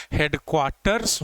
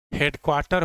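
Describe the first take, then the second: First: हेडक्वार्टर्स with a clear S at the end; final S sounded. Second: हेडक्वार्टर ending on R, without S; no final S. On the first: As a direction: say हेडक्वार्टर्स, closing on "rs". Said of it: "होता है". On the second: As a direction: say हेडक्वार्टर as a bare singular. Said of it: "होता ही नहीं है". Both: Shown as a demonstration.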